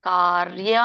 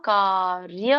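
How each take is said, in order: No difference in how they are said.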